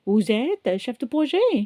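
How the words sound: The voice rises at the end like a question. It asks a question.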